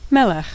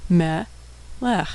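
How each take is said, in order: First: Said in the usual way. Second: Syllable by syllable. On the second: Shown as a demonstration. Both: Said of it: "and final kaf with a shva".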